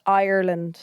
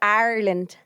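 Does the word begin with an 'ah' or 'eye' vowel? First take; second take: eye; ah. First: The first vowel sounds like 'eye'. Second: The first vowel sounds like 'ah'. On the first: The speaker calls it right. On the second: The speaker calls it wrong.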